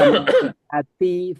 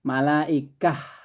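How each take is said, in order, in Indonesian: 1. Kata itu berakhir dengan bunyi ti. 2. Kata itu berakhir dengan bunyi h lembut. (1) "Kalau terus dibaca" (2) "Tapi kalau berhenti"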